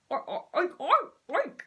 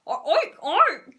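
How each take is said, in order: First: Hesitant oinks at moderate volume; soft oinking. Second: Much louder, confident pig oinks; louder oinking. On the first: Zoo owner's first cautious oinks at the frog. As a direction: oink a bit timidly. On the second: Zoo owner oinks louder as urged. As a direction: really belt out the oinks. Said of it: "getting rather the hang of it". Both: Acted.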